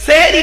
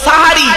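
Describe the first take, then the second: First: The first vowel is an 'e' sound. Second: The first vowel is an 'a' sound. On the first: The speaker calls it wrong. "সেহেরি নয়, দন্তেশয় একার নয়" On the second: The speaker calls it right. "শব্দটা সাহারি। দন্তেশয় আকার"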